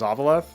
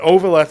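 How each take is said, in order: First: The first part does not sound like 'over'. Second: The first part sounds like 'over', as in Overlord. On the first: "my default is Ovaleth" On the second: "Ovaleth would be like Overlord"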